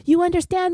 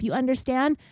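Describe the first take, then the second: First: High-pitched imitation of a scream; pitched-up mock outburst. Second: Restrained, aggressive rising challenge; mildly confrontational retold question; retold verbal aggression. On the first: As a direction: mimic a furious scream, only slightly louder. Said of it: "screaming at the top of his lungs". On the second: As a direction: imitate a curt demand at normal volume. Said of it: "starts getting verbally aggressive".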